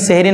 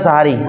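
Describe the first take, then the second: First: The first vowel is an 'e' sound. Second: The first vowel is an 'a' sound. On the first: This is the Urdu form of the word. The speaker calls it wrong. "Urdu ভাষায় একটা নিয়ম হচ্ছে শব্দের প্রথম অক্ষর যেগুলো জবর থাকে তারাকে ... জের দিয়ে পড়ে" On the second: This is the original Arabic form of the word. The speaker calls it right. "আরবি শব্দ সাহারি"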